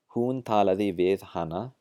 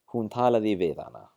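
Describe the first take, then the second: First: The h at the start of 'hana' is pronounced. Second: The h at the start of 'hana' is dropped.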